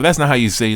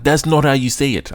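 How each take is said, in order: First: It is said in his natural accent. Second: It is said in an odd put-on accent.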